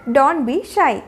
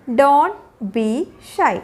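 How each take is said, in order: First: Said in the usual way. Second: Slow, each word set apart. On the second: Shown as a demonstration. Teacher showing learners what to tell shy children, word by word. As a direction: pause after "don't" and after "be". Teacher models phrase slowly, then joined.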